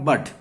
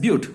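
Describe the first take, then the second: First: The vowel is a short 'uh' sound. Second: The vowel is a long 'yoo' sound. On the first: The speaker calls it wrong. "It is not बट" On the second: The speaker calls it right. "Call it as ब्यूट. ब्यूट करके बोलना पड़ेगा इसको"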